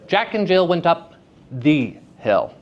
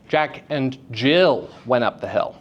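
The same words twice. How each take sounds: First: The word hill is stressed. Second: The word Jill is stressed. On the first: The hill itself is what matters. "The hill is very important. It's the hill" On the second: It was Jill specifically who went up. "Jill specifically went up the hill"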